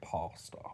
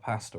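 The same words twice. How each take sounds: First: The first vowel sounds like an O. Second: The first vowel sounds like a flat A.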